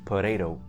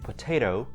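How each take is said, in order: First: The t before the stressed syllable is flapped. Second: The t before the stressed syllable is clear. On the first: The speaker calls it wrong. "but we don't say potato" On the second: The speaker calls it right. "in American English we say potato"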